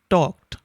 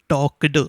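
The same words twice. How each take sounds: First: The word ends with a t sound. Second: The word ends with a d sound. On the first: The speaker calls it right. "these kinds of words are pronounced with a T sound" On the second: The speaker calls it wrong. "you cannot pronounce k and d together ... it sounds a little awkward"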